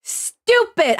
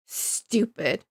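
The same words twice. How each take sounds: First: High-pitched, exasperated outburst; mad outburst. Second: Low, soft, seething aside; quietly mad. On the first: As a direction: burst out with it, high and angry. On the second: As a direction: say it under the voice, annoyed. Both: Real, not acted. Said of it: "I'm so mad!".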